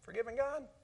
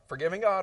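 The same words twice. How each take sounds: First: It is said as a question. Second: It is said as a statement. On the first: It asks whether forgiving God is even possible. "or we can make that a question" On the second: Forgiving God is the topic being announced. "we can make that a statement"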